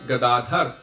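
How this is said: The final vowel is dropped, Hindi style. "in Hindi it's"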